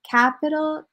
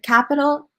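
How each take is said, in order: First: The first vowel is slowed and lengthened. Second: The first vowel is short and rushed. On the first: The speaker calls it right. "slow down a little bit on the "a"" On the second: The speaker calls it wrong. "instead of capital"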